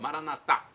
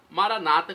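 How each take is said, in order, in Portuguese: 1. A tônica está na última sílaba. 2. A tônica está na penúltima sílaba. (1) "com a pronúncia na última sílaba" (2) "com a tônica na penúltima sílaba"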